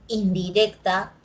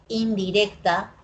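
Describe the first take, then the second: No difference in how they are said.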